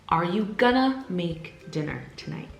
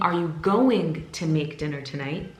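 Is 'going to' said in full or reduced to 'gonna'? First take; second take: reduced; full. First: The words are squeezed into 'gonna'. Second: Each word of 'going to' is said separately. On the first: "replace it with gonna" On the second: "instead of saying"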